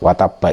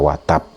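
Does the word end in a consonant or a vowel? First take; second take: vowel; consonant. First: The word ends with a final vowel. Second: The word ends on a bounced stopped consonant. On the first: The reading continues without stopping. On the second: The reader stops at this word.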